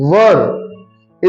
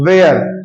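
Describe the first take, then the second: First: The word rhymes with fur. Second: The word rhymes with air. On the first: The speaker calls it right. "It pronounce वर" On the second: The speaker calls it wrong. "ये वेयर नहीं होता"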